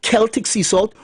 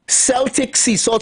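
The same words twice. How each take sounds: First: Celtic pronounced "KEL-tik", starting with a K sound; Celtic with hard K. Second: Celtic pronounced "SEL-tik", starting with an S sound; Celtic with soft S. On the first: Speaker gives other people's pronunciation, Celtic said "KEL-tik". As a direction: say Celtic as "KELL-tick". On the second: Speaker lists salts for a headache cure, Celtic said "SEL-tik". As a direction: say Celtic as "SELL-tick". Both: Shown as a demonstration. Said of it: "some people can pronounce it".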